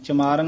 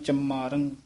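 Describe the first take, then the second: First: The word is said without nasalization. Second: The word is said with nasalization. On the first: The speaker calls it wrong. "ਚਮਾਰੰ ਨਹੀਂ ਕਹਿਣਾ" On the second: The speaker calls it right. "ਉੱਤੇ ਟਿੱਪੀਆਂ ਲੱਗੀਆਂ"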